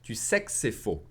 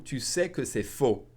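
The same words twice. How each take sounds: First: "que" cut to a bare k before "c'est"; swallowed que. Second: Said in the usual way. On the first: Shown as a demonstration. Teacher showing fast French, "que" swallowed to just k. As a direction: run "sais que c'est" together as sek-sé. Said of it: "I'll swallow that que again". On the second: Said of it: "If I said fast".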